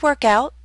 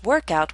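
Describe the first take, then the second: First: The stress falls on the second part, out. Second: The stress falls on the first part, work. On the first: It is a phrasal verb meaning to exercise. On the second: It is a compound noun for an exercise session.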